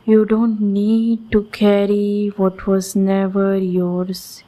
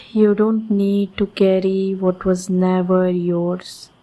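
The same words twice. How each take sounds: The two takes are said the same way.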